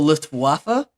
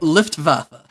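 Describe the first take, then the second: First: The w is said as an English w. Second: The w is said as a v. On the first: The speaker calls it wrong. "they call it the" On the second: The speaker calls it right. "W's are pronounced as V's"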